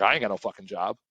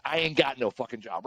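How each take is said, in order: First: With some stank. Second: Ain't got no fucking job said with attitude, a touch softer; sly, cocky delivery of the line; a little stank. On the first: Retold or imitated. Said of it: "I was like". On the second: Shown as a demonstration. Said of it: "Put a little stank on it".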